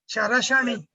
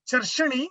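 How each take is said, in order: First: An extra vowel separates the middle consonants. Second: The middle consonants run together without a vowel. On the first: The speaker calls it right. "you should say Charashani" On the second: The speaker calls it wrong. "Instead of saying Charshani"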